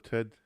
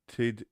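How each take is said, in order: First: Said in the usual way. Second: "Tid" with a short i, Kiwi style. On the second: Shown as a demonstration. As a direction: say "Tid" as a Kiwi says Ted. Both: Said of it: "Tid instead of Ted".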